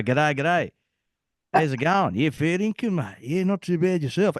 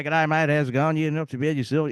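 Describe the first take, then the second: First: Lively mock Australian, a bit higher; Australian accent. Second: Imitating a typical Aussie greeting; Australian accent. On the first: Showing the accent he lost in Bosnia, Australian accent. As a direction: ham up the Aussie mate talk. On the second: Recalling his old Australian accent, Australian accent. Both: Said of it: "I used to sound like a typical".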